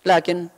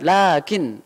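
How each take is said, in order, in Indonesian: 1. Vokal pertama diucapkan pendek. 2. Vokal pertama dipanjangkan. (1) "teman-teman ngomong tuh, lakin begitu bahasanya" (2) "lakin gitu dipanjangkan"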